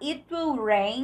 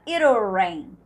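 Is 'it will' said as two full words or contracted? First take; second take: full; contracted. First: Both words, it and will, are said in full. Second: It and will merge into one contracted syllable. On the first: "Você pode cantar it will rain" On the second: "Ele canta it'll rain"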